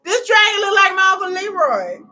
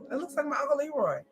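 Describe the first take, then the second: First: Loud and higher, crying the joke out; big loud punchline; shouted punchline. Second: Quick aside. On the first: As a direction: yell it at the screen. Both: Real, not acted. Dragon teeth joke.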